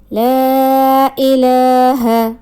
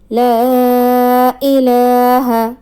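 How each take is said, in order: First: The vowel after the first l is long. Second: The same.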